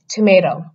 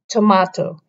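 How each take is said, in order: First: It is spoken in an American accent. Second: It is spoken in a British accent. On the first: "In the American accent, they sound it out like tomato" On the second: "in the British accent, ... they pronounce it as tomato"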